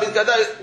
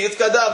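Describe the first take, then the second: First: Yitkadav echoed back the same way; echoing Yitkadav; repeated Kaddish word. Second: Teaching Yitkadav to repeat; recited Kaddish word. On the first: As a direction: repeat Yitkadav after the leader. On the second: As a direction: lead him through Yitkadav syllable by syllable. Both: Shown as a demonstration. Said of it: "Repeat after me".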